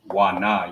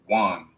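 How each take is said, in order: First: It is said as two separate syllables. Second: It is said as one joined syllable. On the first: The speaker calls it wrong. "you don't pronounce it wa na" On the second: The speaker calls it right. "you pronounce it wan"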